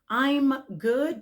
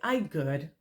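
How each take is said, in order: First: The M sound after 'I' is clearly pronounced. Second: The M sound after 'I' is left out. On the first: The speaker calls it right. "sound out that letter M at the end" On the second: The speaker calls it wrong. "And that's incorrect"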